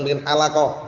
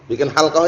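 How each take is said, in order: First: The last word has three syllables, an added vowel. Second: The last word has two syllables, no middle vowel. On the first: Let's make barbers. The speaker calls it wrong. "bukan bikin halaqah" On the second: Let's form a study circle. The speaker calls it right. "Bikin halqah yuk, bukan bikin halaqah"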